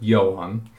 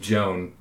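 First: It is said with a Norwegian pronunciation. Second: It is said with an American English pronunciation.

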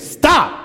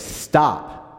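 First: It is shouted very loudly. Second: It is said firmly, not shouted.

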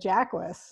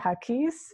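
First: The name is said with an English-style pronunciation. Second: The name is said with a Spanish-style pronunciation. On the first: This is how the name's own family says it. The speaker calls it right. "my family said Jacquis" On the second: The name is assumed to be Spanish. The speaker calls it wrong. "they think it's Spanish and they say Haquis"

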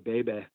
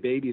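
First: It ends in a more open vowel. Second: It ends in a closed ee vowel. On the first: The speaker calls it right. "You've got to kind of open vowels to sound more pleasant" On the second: The speaker calls it wrong. "They don't say baby"

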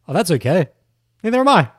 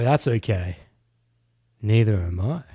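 First: It sounds eager, innocent and nice-guy friendly. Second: It sounds suggestive, with a flirtatious undertone.

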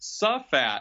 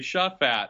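First: The name starts with a plain 's' sound. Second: The name starts with an 'sh' sound. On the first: The speaker calls it wrong. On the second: The speaker calls it right.

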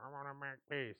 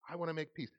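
First: It sounds grudging and insincere. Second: It sounds earnest and sincere. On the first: The speaker does not really mean it. The speaker calls it wrong. "don't say it like that, because it doesn't sound like you mean it" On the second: The speaker truly means it. The speaker calls it right. "Like, this is important"

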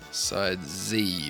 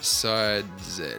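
First: Z is said the American way, 'zee'. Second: Z is said the British way, 'zed'.

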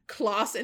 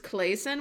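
First: The first syllable does not rhyme with Jason. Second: The first syllable rhymes with Jason. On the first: The speaker calls it wrong. "I said her last name wrong" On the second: The speaker calls it right. "which is a way better sounding last name"

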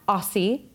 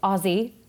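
First: It is pronounced the way outsiders say it. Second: It is pronounced the way Australians say it. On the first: The speaker calls it wrong. "it's not Aussie" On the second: The speaker calls it right. "it's Aussie"

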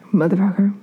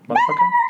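First: It is said at a very low pitch. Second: It is said at a very high pitch.

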